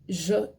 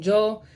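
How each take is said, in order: First: It begins with a 'sh'-like sound. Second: It begins with a 'y' sound. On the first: "they change it to that that j sound, like or sh" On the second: "instead of saying yo"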